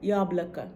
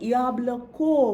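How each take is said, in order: First: The final vowel sounds like 'a'. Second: The final vowel sounds like 'o'. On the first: The speaker calls it right. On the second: The speaker calls it wrong.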